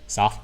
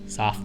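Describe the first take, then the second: First: The final T is barely pronounced at all. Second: The final T is barely pronounced at all.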